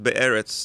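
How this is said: The word is said in an Israeli accent. "You said an Israeli accent"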